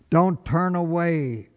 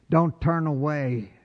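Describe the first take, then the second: No difference in how they are said.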